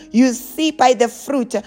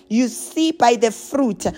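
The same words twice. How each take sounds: The two takes are said the same way.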